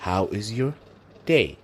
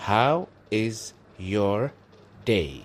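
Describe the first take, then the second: First: Said in the usual way. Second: How is your day spoken very slowly, each word drawn out; very slow demo. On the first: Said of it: "Ku celceli". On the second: Shown as a demonstration. Teacher modelling the phrase for students, very slow. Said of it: "Waqtigaada qaado".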